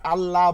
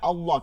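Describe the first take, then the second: First: The word is said with a light, thin sound. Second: The word is said with a heavy, thick sound. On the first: The speaker calls it wrong. "অনেকে আল্লাহ বলেন" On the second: The speaker calls it right. "আল্লাহ শব্দকে মোটা করে পড়তে হয়"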